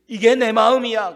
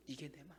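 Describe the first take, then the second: First: Loud declaration. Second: The same words again, much softer, almost breathed; soft repeat. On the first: God's heart declared. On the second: Preacher repeating God's words to the congregation, much softer. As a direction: let it sink in quietly. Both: Acted.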